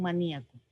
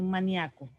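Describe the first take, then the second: First: "maníaco" as ma-NÍ-a-co; hiatus pronunciation. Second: "maníaco" as ma-NIA-co, stress on the a; diphthong pronunciation. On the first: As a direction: stress the í in "maníaco", apart from the a. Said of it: "como se puede decir". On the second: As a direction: glide ia into one syllable in "maníaco". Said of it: "se puede decir como cardíaco". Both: Shown as a demonstration.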